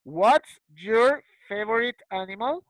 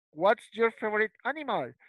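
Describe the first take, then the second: First: Slow, word-by-word "What's your favorite animal", rising at the end; slow model question. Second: Said in the usual way. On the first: Shown as a demonstration. Teacher models the question for pupils, slowly and rising. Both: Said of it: "Yo pregunto".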